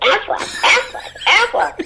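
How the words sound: It is said in a nasal, duck-like voice.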